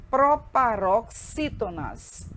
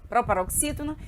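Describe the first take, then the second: First: "proparoxítonas" broken into drawn-out syllables; teacher introducing "proparoxítonas" very deliberately; slow syllable-by-syllable. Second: Said in the usual way. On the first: Shown as a demonstration. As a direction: sound out "proparoxítonas" slowly, piece by piece. Teacher introduces the term slowly.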